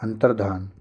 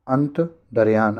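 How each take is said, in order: First: अंतर्धान as antar-dhaan, with no y; plain dhaan ending on अंतर्धान; teacher modelling antar-dhaan for अंतर्धान; correct pronunciation. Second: अंतर्धान said slowly as ant-dar-yaan; slow faulty ant-dar-yaan for अंतर्धान; wrong pronunciation. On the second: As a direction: put a y glide into the end of अंतर्धान. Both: Shown as a demonstration. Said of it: "अंतर्धान नहीं".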